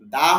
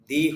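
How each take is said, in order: First: The vowel sounds like 'uh'. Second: The vowel sounds like 'ee'. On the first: "দা হয়" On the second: "দি হয়"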